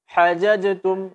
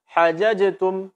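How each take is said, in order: Both takes have the same delivery.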